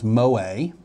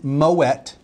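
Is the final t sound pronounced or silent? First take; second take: silent; pronounced. First: The final t sound is silent. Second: The final t sound is pronounced. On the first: The speaker calls it wrong. "thought it was Moët because it's French and ends in E-T" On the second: The speaker calls it right. "it is Moët"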